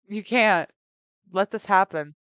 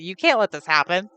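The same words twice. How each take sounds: First: There is a pause after "can't". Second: It is said without any pause. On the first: The speaker calls it wrong. "I read that wrong. I I put a pause on that" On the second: The speaker calls it right.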